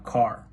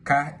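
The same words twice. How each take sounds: First: Said in the usual way. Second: "ka", car with no R at all; dropped R. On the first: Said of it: "instead of". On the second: Shown as a demonstration. Student showing older Boston speech, R dropped. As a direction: end "ka" on the open vowel, R dropped. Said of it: "used to drop the R sound".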